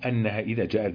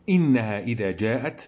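First: The first word begins with an a vowel. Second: The first word begins with an i vowel. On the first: It continues the preceding clause. "والباقون هو الوجه الثاني لشعبة" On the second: It starts a new, emphatic statement. "على الاستئناف"

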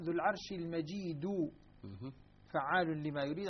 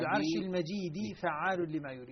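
First: The word majeed ends with a u vowel. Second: The word majeed ends with an i vowel. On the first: The glorious one is God himself. "بقية القراء ... على أنها لله سبحانه وتعالى" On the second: The glorious one is the throne. "حمزة والكسائي يقرؤونها بكلم بجر كلمة الكسر دال من المجيد"

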